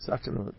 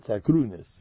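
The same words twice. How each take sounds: First: "Sakranut" ending in a t sound; "Sakranut", the modern Hebrew way; modern Hebrew pronunciation. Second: "Sakrunis" ending in an s sound; "Sakrunis", the old yeshiva way. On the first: Shown as a demonstration. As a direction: say "Sakranut" with an a and final -ut. Contrasted with "He said Sakrunis. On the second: Retold or imitated. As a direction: say "Sakrunis" with an oo and final -is. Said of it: "He said Sakrunis".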